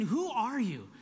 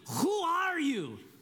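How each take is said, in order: First: It is said in his own normal voice. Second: It is said in the film character's accent.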